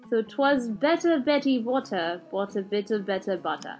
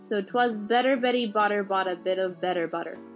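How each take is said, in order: First: It is said in a British accent. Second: It is said in an American accent.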